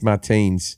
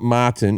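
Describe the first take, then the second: First: The name ends with an s sound. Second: The name ends without an s sound. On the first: The speaker calls it right. "it's Martins" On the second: The speaker calls it wrong. "it's not Martin"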